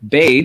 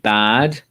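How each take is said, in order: First: The vowel sounds like the one in 'made'. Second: The vowel sounds like the one in 'sad'. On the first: "if we go with bade, we can say played or made" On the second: "if we say bad, had, cad, sad"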